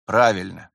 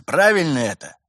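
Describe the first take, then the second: First: Low-key, reluctant ПРАВИЛЬНО; grudging admission. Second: Higher, louder ПРАВИЛЬНО, then a fall; insistent question. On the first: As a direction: concede it grudgingly, pitch held down. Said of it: "скрипя сердце, признал Виталий". (нехотя признавая) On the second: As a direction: demand confirmation, hit ПРАВИЛЬНО high and hard. Pressing question awaiting reluctant admission. (требовательный вопрос, ПРАВИЛЬНО выше и громче) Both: A narrator's reading.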